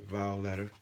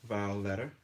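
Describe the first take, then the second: The two takes are said the same way.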